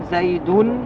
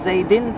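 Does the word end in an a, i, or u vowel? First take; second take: u; i. First: The word ends with a rounded u vowel. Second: The word ends with a front i vowel. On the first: The word is the subject of the sentence. "عند الرفع تقول زيد" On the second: The word follows a preposition. "عند الخفض زيد تخفض اللسان"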